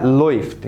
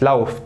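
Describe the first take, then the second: First: لويفت with an "oy" glide, "loyft"; teacher's correct model of لويفت, vowel as in "boy"; correct "oy" diphthong. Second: لاوفت with an "ow" glide, "lauft"; the mistaken reading لاوفت, vowel as in "cow"; mistaken "au" diphthong. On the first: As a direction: say لويفت as "loyft", never "lauft". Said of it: "اسمها لويفت". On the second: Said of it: "مش لاوفت". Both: Shown as a demonstration.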